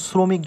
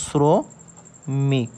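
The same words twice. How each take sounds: First: Said in the usual way. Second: "শ্রমিক" slowly as sro, pause, mik; dental s sound. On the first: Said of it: "আমরা শ্রমিক যখন উচ্চারণ করি". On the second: Shown as a demonstration. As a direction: start শ্রমিক with a hissed English s, split in two. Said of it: "অর্থাৎ এইরকম". ("শ্রমিক" দন্ত্য স দিয়ে ধীরে, স্রো ... মিক)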